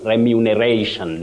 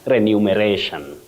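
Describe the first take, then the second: First: The second syllable is said as 'mu'. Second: The second syllable is not said as 'mu'. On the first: The speaker calls it right. "You have remu, mu" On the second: The speaker calls it wrong. "not remuneration"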